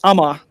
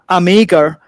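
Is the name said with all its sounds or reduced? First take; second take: reduced; full. First: The final sounds of the name are dropped. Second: Every written sound of the name is pronounced. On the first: This is how Danes actually say it. The speaker calls it right. "It's Ama" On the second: This is how the name looks when read. The speaker calls it wrong. "they just miss out things like that"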